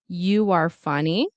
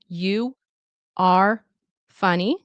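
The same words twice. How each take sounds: First: A W sound links 'you' and 'are'. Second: Each word is said slowly and separately. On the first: "with a W" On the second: "slow and careful"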